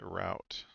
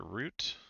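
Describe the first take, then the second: First: "route" said like "rout"; "route" pronounced to rhyme with shout. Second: "route" said like "root"; "route" pronounced root, questioning rise. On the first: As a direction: say "route" with an ow vowel, rhyming with out. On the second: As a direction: say "route" with an oo vowel, rhyming with boot. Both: Shown as a demonstration. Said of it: "So I've got a question".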